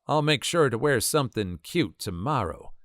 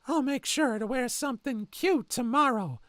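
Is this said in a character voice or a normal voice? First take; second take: normal voice; character voice. First: It is read in a plain, normal voice. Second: It is said in a creepy, put-on character voice.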